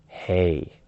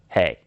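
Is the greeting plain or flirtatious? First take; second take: flirtatious; plain. First: It is said in a sexy, intimate way. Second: It is said in a plain, ordinary way.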